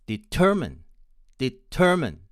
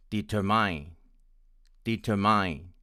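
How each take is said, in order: First: Determine stressed on the second syllable, ending in a schwa; American pronunciation. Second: Determine stressed on the third syllable, ending like "mine"; Indian English pronunciation. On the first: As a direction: say determine as de-TER-min, unstressed last vowel. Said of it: "with stress on the second syllable and with the last vowel of schwa". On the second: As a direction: say determine as deter-MINE, last vowel "eye". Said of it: "with stress on the third syllable, with the last vowel as I". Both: Shown as a demonstration.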